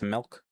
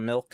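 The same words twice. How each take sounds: First: The vowel sounds like 'eh', as in melk. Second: The vowel sounds like 'ih' in English milk. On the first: The speaker calls it right. "it's milk" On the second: The speaker calls it wrong. "Instead of milk"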